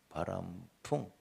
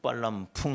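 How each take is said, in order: First: It starts with a plain b sound. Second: It starts with a tense pp sound. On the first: The speaker calls it right. "가르친 바람풍" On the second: The speaker calls it wrong. "발음이 안 좋아서 빨람풍"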